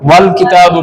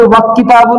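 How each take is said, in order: First: वल किताबु with the lam clearly sounded; correct reading. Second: वक किताबु with a k sound where the lam should be; wrong reading. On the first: Teacher showing students the right reading, वल किताबु with the lam. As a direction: say वल किताबु, joining व and the l. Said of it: "पढ़ते हैं". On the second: Teacher showing students the wrong reading, वक किताबु with no lam. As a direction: say वक किताबु, dropping the l. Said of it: "नहीं पढ़ते हैं". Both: Shown as a demonstration.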